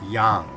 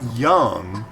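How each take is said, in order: First: The vowel does not sound like 'young'. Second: The vowel sounds like the one in 'young'. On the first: The speaker calls it right. "It's Yang" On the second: The speaker calls it wrong. "Not young"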